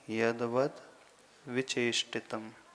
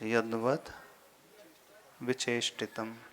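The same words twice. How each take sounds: First: The syllable 'vat' is clearly pronounced. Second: The syllable 'vat' is clearly pronounced.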